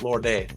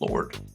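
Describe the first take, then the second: First: The name has an extra 'ay' syllable added. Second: The name is said as one syllable. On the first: The speaker calls it wrong. "not Lord A" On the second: The speaker calls it right.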